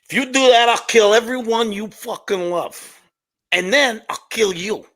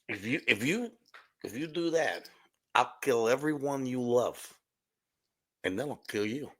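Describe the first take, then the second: First: It is said loudly with more energy. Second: It is said quietly and subdued.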